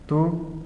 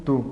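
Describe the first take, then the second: First: TÚ lifted in a rising tone; TÚ held up, first of a contrasting pair; accented form. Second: Tú dropped in a falling tone; tú let fall, closing the pair; unaccented form. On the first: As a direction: say TÚ as the accented word, pitch going up. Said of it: "acentúas tú si es pronombre". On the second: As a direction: say tú as the unaccented word, pitch going down. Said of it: "No acentúa la palabra tú". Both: Shown as a demonstration.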